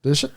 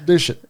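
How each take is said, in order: First: Said in the usual way. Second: "Douche it" in a mock British accent; light mock British accent. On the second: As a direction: say "Douche it" like a posh Brit. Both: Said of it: "why do you sound like you're from Great Britain".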